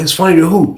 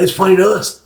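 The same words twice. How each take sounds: First: "who" pushed as a challenge; questioning WHO. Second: "us" stated as the answer. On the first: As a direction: echo it back, questioning "who". Questions roommate's phrase. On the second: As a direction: repeat it firmly, landing on "us". Roommate answers the question. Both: Retold or imitated.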